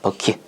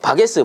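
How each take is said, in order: First: It is said as two syllables, 'beo-kit'. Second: It is said as three syllables, 'ba-ge-seu'. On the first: It is the standard name for the object. The speaker calls it right. "요게 버킷입니다" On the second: It is an old Japanese-derived form used by elders. The speaker calls it wrong. "이게 뭐냐면은 버킷의 옛날에 일본 발음입니다"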